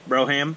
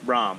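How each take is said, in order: First: The word is said as two syllables. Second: The word is said as one syllable. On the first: "nah, it says Broham" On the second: "it's Brom, dude"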